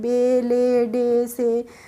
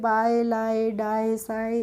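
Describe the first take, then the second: First: Each word ends in a plain, steady 'e' vowel. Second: Each word ends in a gliding 'ai' vowel. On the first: The speaker calls it right. "हमें rule पता है तभी तो हमने इनको पढ़ा है" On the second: The speaker calls it wrong. "अगर हमें रूल नहीं पता होता हो सकता हम पढ़ते"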